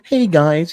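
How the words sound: It is said in a lighthearted Kermit-like voice.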